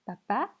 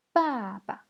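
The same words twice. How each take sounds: First: Said in the usual way. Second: "Papa" falling from a long first syllable to a light second; neutral tone. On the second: Shown as a demonstration. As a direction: stretch and drop the first "Pa", tap the last lightly. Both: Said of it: "on va voir le ton neutre".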